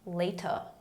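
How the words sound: It is said in a British accent. "Em inglês britânico"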